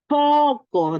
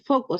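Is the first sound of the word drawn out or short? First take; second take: drawn out; short. First: The first sound is drawn out and emphasized. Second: The first sound is short and ordinary. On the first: "Haciendo bastante énfasis en la letra que estoy aprendiendo" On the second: "no solamente leer foco"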